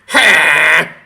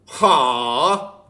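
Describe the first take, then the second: First: The cry sounds rough, with a distorted rasp. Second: The cry sounds clean, without rasp or distortion. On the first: The speaker calls it right. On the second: The speaker calls it wrong.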